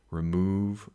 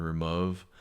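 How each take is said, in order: First: Said in the usual way. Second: "remove" said as "re-MUV"; "remove" with the short vowel of "love"; forced rhyme. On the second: Shown as a demonstration. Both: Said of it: "we're going love and remove".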